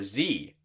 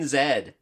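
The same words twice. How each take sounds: First: The letter is said as zee, American. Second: The letter is said as zed, non-American.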